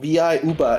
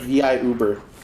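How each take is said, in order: First: It is said in a Virgin Islands accent. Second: It is said in a standard American accent.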